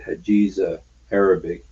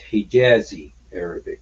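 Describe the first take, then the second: First: The first word is pronounced as Hajiza. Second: The first word is pronounced as Hijazi. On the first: The speaker calls it wrong. "He said Hajiza Arabic" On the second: The speaker calls it right. "It's Hijazi Arabic"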